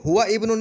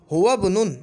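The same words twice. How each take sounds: First: हुआ इब्नुन with the hamza of इब्नुन sounded as a new word; wrong separate hamza. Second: हुआ बुनुन joined, the इ of इब्नुन dropped; linked correct reading. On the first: Teacher to students, showing the wrong separate reading. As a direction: keep the इ of इब्नुन after हुआ. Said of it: "नहीं पढ़ेंगे". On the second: Teacher to students, showing the right linked reading. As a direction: run हुआ straight into बुनुन. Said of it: "क्योंकि हमज़ा वसल है". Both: Shown as a demonstration.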